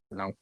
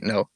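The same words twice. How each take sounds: First: "No" with an open, drawled "naw" vowel; grandma's signature no. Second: Said in the usual way. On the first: Retold or imitated. Grandma redoing her take for the recording, "No" as "naw". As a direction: say "No" as a curt "naw", imitating grandma. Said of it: "say it right". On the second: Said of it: "I mean, say it right".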